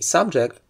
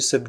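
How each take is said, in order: First: The stress is on the first syllable. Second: The stress is on the second syllable. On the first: It is a topic being discussed or studied. "requires that the first syllable is stressed if it's a noun or an adjective" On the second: It is used as a verb. "It turns into"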